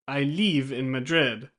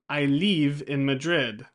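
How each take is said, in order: Both takes have the same delivery.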